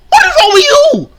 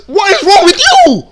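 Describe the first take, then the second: First: Very high, loud mock whine; mock whiny cry. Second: High squeaky mock of her. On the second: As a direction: parrot her words in a squeal. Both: Repeating clip in disbelief.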